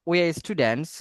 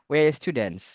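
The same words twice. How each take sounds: No difference in how they are said.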